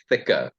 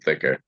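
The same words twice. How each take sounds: First: The final R is dropped. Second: The final R is pronounced, American style. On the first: This is how people in South Africa say it. "South Africa, we say thicker. There's no R" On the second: The speaker slipped into the listener's accent. "See, there it just happened again"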